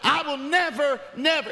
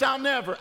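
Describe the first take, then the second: First: "never" hit high and hard, then repeated; emphatic never. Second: Said in the usual way. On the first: Shown as a demonstration. Pastor showing it was emphatic, "never" punched twice. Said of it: "It was emphatic". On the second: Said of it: "Not just".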